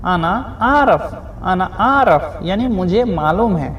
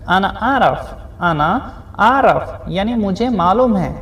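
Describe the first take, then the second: No difference in how they are said.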